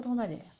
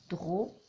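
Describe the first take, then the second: First: Said in the usual way. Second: "Dromadaire" as dro, ma, daire with pauses; three separate syllables. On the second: Shown as a demonstration. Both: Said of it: "Trois syllabes pour dromadaire".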